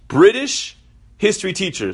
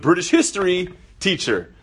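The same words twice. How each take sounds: First: There is a pause after British. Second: There is no pause after British. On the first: The teacher is British. "After British" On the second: The teacher teaches British history. "Or it could be it's a British history teacher"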